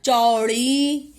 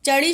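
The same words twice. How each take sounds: First: चौड़ी very slow, long औ; चौड़ी stretched as "chau-ree"; corrected word. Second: चढ़ी with a short "a" after च; quick first vowel in चढ़ी; misspelt word. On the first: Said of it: "क्या होता है". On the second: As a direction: say चढ़ी as "cha-ri", no औ. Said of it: "शब्द नहीं होता". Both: Shown as a demonstration.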